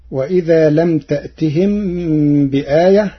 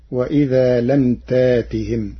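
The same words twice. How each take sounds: First: تأتهم with a glottal stop, taʔtihim; تأتهم with a clear hamza; Hafs reading. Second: تاتهم as tātihim, with long ā and no hamza; تاتهم with a long open ā; Warsh reading. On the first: Teacher quoting the standard reading, recited. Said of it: "قرأ ورش كلمة تأتهم". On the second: Teacher reciting Warsh's variant to the class. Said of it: "بإبدال الهمز الساكن ألفا". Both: Shown as a demonstration.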